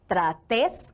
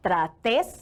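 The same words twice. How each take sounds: First: The stress is on the second syllable. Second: The stress is on the second syllable.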